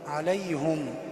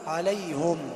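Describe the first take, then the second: First: The h is followed by a u vowel. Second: The same.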